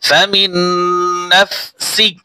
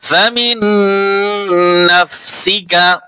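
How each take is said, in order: First: The phrase ends with a bare k consonant. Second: The phrase ends with a full ka syllable. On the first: The reading stops at this word. "কা উচ্চারণ হবে না যখন অক্ফ করব" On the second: The reading continues past this word. "কাফ জবর কা"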